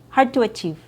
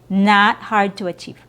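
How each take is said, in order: First: The E vowel is held long. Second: The E vowel is cut short. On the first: The speaker calls it right. "with a proper E sound and your V sound" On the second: The speaker calls it wrong.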